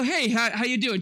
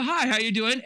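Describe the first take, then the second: First: Said in the usual way. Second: Muffled behind a hand; hand over mouth. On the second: Shown as a demonstration. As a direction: speak through your palm, muffled. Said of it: "Put your hand over your, your mouth and go".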